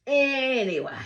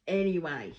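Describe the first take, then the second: First: High, loud, drawn-out ANYWAY; ANYWAY pitched up and belted to change the subject; emphatic moving on. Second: Said in the usual way. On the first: Real, not acted. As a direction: sing out "Anyway", stretching the start and falling away. Second, emphatic take to move on.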